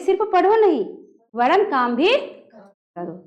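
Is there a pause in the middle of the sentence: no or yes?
yes. It has a short pause after नहीं. The speaker calls it right. "कहेंगे"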